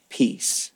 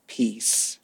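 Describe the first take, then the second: First: "Peace." fully whispered, no voice. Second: "Peace." much softer and lower, gently voiced; soft spoken peace. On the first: Preacher echoing Jesus's word a second time, whispered. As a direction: let "Peace." fall as a breath. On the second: Preacher repeating Jesus's word to the congregation, hushed. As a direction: breathe out "Peace." quietly but with voice. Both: Shown as a demonstration. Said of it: "one word spoken two times".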